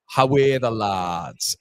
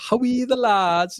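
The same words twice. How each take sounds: First: Slow, drawn-out Geordie "How are the lads"; attempted Geordie accent. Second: High-pitched, slow Sunderland chant; attempted Sunderland accent. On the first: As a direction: try a stretched Geordie cheer. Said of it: "is that Geordie?". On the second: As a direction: try a stretched Mackem cheer, pitched way up. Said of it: "Is that a little bit of Sunderland?". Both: Shown as a demonstration.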